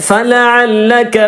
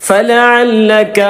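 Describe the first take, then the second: The two takes are said the same way.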